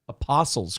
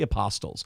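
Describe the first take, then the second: First: The T in the middle is silent. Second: The T in the middle is clearly pronounced. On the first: The speaker calls it right. "You don't pronounce the T in Apostles" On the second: The speaker calls it wrong. "not the Apostles"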